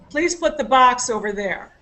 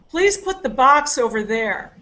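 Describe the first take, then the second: First: The stress is on "box". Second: The stress is on "box".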